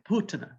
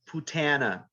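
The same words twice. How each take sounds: First: The second syllable is not stressed. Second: The second syllable is strongly stressed. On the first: The speaker calls it right. "but it's like putana" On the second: The speaker calls it wrong. "we have the tendency to overemphasize the second syllable"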